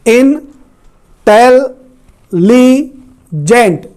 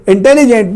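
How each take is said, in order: First: "intelligent" broken into four slow, separated syllables. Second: Said in the usual way. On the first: Shown as a demonstration. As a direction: say "intelligent" in four drawn-out pieces with pauses between. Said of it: "चार syllable हैं". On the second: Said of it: "intelligent में चार syllable हैं".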